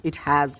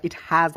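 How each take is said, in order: Both takes have the same delivery.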